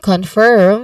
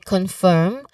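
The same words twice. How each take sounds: First: The R sound is clearly pronounced, American style. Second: The R sound is dropped, British style. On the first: "with a clear R sound in American English" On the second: "which is how British English usually say it"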